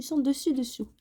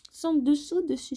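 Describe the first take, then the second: First: "Sans dessus dessous" with "dessus" first, the right way round; corrected word order. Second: The mixed-up "dessous dessus", before the fix; wrong word order. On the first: ("Sans dessus dessous", ordre correct) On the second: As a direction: say "Sans dessous dessus" with "dessous" before "dessus", a playful slip. ("Sans dessous dessus", mots inversés par erreur) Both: Shown as a demonstration.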